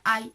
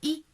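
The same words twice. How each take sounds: First: The letter sounds like the gliding 'eye'. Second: The letter sounds like a plain 'ee'. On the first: "en inglés sería I" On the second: "nosotros el sonido de la letra I se vendría siendo I"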